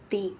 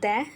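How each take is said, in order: First: The vowel is long and high, like 'thee'. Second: The vowel is short and neutral, like 'thuh'. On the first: "இன்னொன்று தி" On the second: "ரெண்டு விதமாக உச்சரிக்கலாம். One த"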